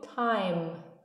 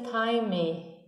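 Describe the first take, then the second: First: The word ends with the lips closed on M. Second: The word ends with an extra vowel sound. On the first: The speaker calls it right. "eu digo time e termino com esse fechamento dos lábios" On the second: The speaker calls it wrong. "mas eu não vou dizer time"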